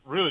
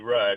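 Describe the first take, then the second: First: The name is said like the word 'rude'. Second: The name is said with the vowel of 'mud'. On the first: The speaker calls it wrong. "people would always mispronounce my grandfather's names" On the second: The speaker calls it right. "it's R-U-D-D"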